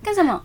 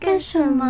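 First: It is said in a fierce, harsh tone. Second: It is said in a soft, gentle tone.

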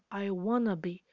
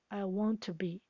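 First: The t sounds disappear, giving wanna. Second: The t of want runs into to. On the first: "会变成I wanna be，里面的t 都不见。" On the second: "我们把want 的t 和后面的to 连音，"

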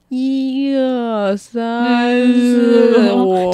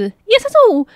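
First: It is said slowly with echoing sound. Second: It is said fast and shrill.

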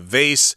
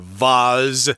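First: It is said with an American pronunciation. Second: It is said with a British pronunciation.

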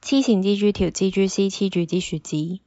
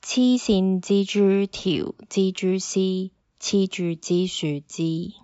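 First: It is said very fast. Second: It is said at normal speed.

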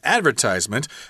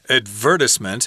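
First: It is said with an American pronunciation. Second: It is said with a British pronunciation.

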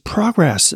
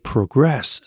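First: The stress is on the first syllable. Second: The stress is on the second syllable. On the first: It is the noun, forward movement. "那就变成重音在前，就变成名词叫做前进" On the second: It is the verb, to move forward. "重音在后就是一个动词叫做前行"

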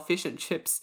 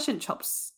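First: It is said in a standard accent. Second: It is said in a New Zealand accent.

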